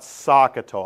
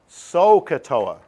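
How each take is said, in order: First: The first syllable sounds like 'saw'. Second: The first syllable sounds like 'so'. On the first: "I don't know why I say saw" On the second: "I should be pronouncing it So-katoa"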